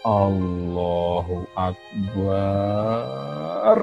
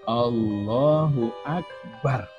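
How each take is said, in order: First: The last syllable of Akbar has a long vowel. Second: The last syllable of Akbar has a short vowel. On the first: It becomes a plural meaning many drums. The speaker calls it wrong. "Barnya panjang" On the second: God is the greatest. The speaker calls it right. "barnya tidak boleh panjang"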